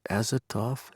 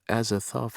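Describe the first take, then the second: First: The last syllable begins with a plain t sound. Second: The last syllable begins with a th sound. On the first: The speaker calls it wrong. "For some reason I was thinking it was a T now" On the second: The speaker calls it right. "The T H is pronounced"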